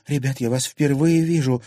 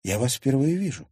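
First: Louder, higher insistence; insistent repeated denial. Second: Higher, mildly bewildered statement; puzzled denial. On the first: Girl repeating denial to angry thugs, insistent. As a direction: repeat it more firmly to them. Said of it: "повторила Лиза". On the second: Girl telling strangers she doesn't know them, puzzled. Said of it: "ещё больше удивилась Лиза". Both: Acted.

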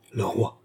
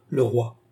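First: Understated dread; a touch of horror, sinking voice; horrified echo. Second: Said in the usual way. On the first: A narrator's reading. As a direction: echo it in subdued dismay. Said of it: "répétèrent les deux femmes avec épouvante".

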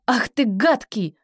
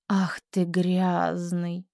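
First: Loud. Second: Whispered, slow, disgusted; quiet disgust. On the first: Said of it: "Громко". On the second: Teacher whispers the repeat with disgust. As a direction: breathe it out in disgust. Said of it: "Тише, с брезгливостью". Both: Shown as a demonstration.

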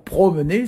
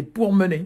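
First: Said in the usual way. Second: "pour mener", with the R after the vowel; R shifted to syllable end. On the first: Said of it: "Au lieu de dire promener". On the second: Shown as a demonstration. Teacher shows the Breton form of promener, R shifted. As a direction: say "pour mener" as pour-me-ner, not pro-. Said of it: "le R se trouve à la fin de la première syllabe".

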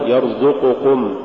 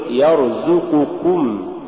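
First: يرزقكم said in the faulty way to avoid; mispronunciation demo. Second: يرزقكم recited slowly in the correct form; the model pronunciation of يرزقكم; correct recitation. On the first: Tajweed teacher showing what not to say, mispronunciation demo. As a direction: show the slip in يرزقكم. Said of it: "ولا تقل". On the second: Tajweed teacher giving the form to say, correct recitation. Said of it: "قل". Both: Shown as a demonstration.

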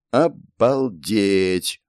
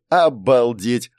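First: Slow, drawn-out amazement; awed exclamation. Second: Slow, drawn-out wonder; amazed. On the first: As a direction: stretch it out in wonder. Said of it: "восхищённо произнести". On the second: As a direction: stretch it in disbelief. Second amazed exclamation. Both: A narrator's reading.

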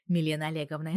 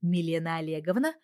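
First: Said in the usual way. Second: Rising, startled question; caught-out workers recognising their boss; astonished chorus. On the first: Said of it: "вторил второй". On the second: A narrator's reading. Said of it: "чуть ли не хором ответили они". (удивлённо, хором)

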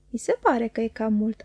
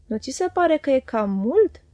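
First: Smiling. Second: Said in the usual way. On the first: Acted. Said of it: "am răspuns eu zâmbind". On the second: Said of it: "a zis".

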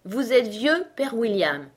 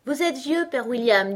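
First: Poem title given as an order; name the piece firmly, falling at the end; commanding. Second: High, loud schoolchild recitation; reciting. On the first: Caterpillar telling Alice which poem to recite, commandingly. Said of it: "ordonna la chenille". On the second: Alice starting her poem for the caterpillar, reciting. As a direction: recite the verse dutifully. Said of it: "joignit les mains et commença". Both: A narrator's reading.

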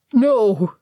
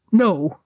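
First: Louder, breaking howl of grief; anguished cry. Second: Choked cry. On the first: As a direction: cry out in raw loss. Gimli grieving at tomb. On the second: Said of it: "Gimli choked". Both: A narrator's reading.

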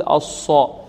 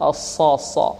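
First: الصا with pursed lips; wrongly rounded sad. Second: Heavy الصا without lip rounding; correct unrounded sad. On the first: Teacher shows the error, lip-rounded sad. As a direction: push the lips forward on الصا. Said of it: "هذا خطأ، لا نقول الصا". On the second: Teacher demonstrates the right sound, unrounded heavy sad. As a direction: keep the lips relaxed on a heavy صا. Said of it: "لا نقول الصا، لا". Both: Shown as a demonstration.

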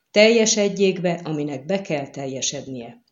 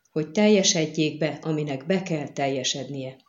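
First: TELJESEDJÉK BE struck hard, the rest dropping; emphatic invocation. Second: Dull voice. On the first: Bidding the girl take the sword, emphatically. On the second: Giving up the sword so fate is fulfilled, dully. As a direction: let the words sink, dull and resigned to fate. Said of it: "bökte ki végre tompa hangon". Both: A narrator's reading.

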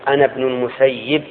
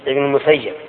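First: المسيب said al-Musayyib, ending in "-yib"; name with kasra. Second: المسيب said al-Musayyab, ending in "-yab"; name with fatha. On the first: Retold or imitated. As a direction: give المسيب an "i" in its last syllable. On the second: Shown as a demonstration. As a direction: give المسيب an "a" in its last syllable. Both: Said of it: "يعني من قال".

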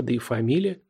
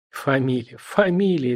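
First: Said in the usual way. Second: Передразнивание. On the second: A narrator's reading. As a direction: mimic the word back teasingly. (передразнивая собеседника) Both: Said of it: "передразнил Митишатев".

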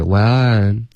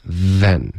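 First: "when" with a rounded W, standing in for then. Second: "Then" with a buzzing voiced TH; tongue to teeth, friction at the start of "Then"; fricative TH. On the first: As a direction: mimic a learner saying "when" for then. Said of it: "刚刚发的是". (模仿错误发音，把then发成“when”) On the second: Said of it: "导致一个摩擦音". (“Then”舌尖碰齿，摩擦发音) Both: Shown as a demonstration.

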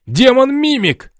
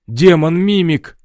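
First: High, slow, loud panicked shriek; guard shrieks about the demon in panic. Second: Slow, louder cry of alarm; guard cries out about the demon, alarmed. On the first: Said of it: "заорал Рыжий". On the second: Guards panic at mimic. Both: A narrator's reading.

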